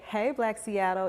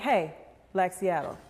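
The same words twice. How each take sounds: First: It is said in a bright, cheerful greeting tone. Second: It is said in a firm, serious tone. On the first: It is a simple hello. "it's a greeting" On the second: Something important needs to be discussed. "we need to have a conversation"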